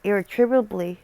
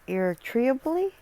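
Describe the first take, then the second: First: "Irretrievably" attempted carefully with a falling end; second-try pronunciation. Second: "irretrievably" climbing high into a question; doubtful pronunciation. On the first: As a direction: sound out "Irretrievably" and let the tune drop. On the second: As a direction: say "irretrievably" as if unsure, pitch rising to the end. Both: Real, not acted. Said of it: "I can't pronounce that properly".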